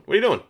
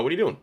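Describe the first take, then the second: First: High, loud exasperated question. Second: Said in the usual way. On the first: Real, not acted. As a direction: call out the mistake in disbelief. Repeats question louder and higher.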